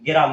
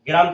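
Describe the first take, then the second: First: An e vowel breaks up the opening cluster. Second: The word begins with a consonant cluster. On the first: This is the changed form with an inserted vowel. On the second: This is the original form.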